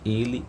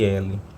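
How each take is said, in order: First: The first vowel is closed. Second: The first vowel is open. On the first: It is the pronoun. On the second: It is the letter L.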